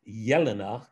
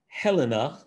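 First: The name begins with a Y sound. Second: The name begins with an H sound. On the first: The speaker calls it right. "It's actually a soft J" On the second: The speaker calls it wrong. "which is also not correct"

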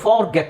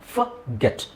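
First: The first syllable has a full, long vowel. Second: The first syllable has a short, reduced vowel. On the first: The speaker calls it wrong. "ಫಾರ್ ಗೆಟ್ ಅಲ್ಲ" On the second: The speaker calls it right. "ಅಲ್ಲಿ ಅ ಸಣ್ಣ ಅ ಅಂತ ಹೇಳಬೇಕು"

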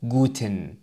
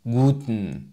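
First: The vowel before the final n is clearly pronounced. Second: The vowel before the final n is dropped. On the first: The speaker calls it wrong. "وليس guten" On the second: The speaker calls it right. "بل guten"

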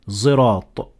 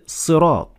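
First: It begins with a voiced z-like sound. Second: It begins with a heavy, emphatic s sound. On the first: "turn the Sad in this position to an almost Zay" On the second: "it starts with a Sad"

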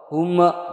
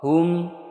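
First: The final m bounces with an added vowel. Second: The final m is short and clear. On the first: The speaker calls it wrong. "Atau huma dipantul, tidak boleh" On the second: The speaker calls it right. "Jadi harus dibaca jelas, tidak mantul, tidak ber berdengung. Contoh, hum ya"

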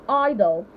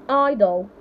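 The two takes are said the same way.

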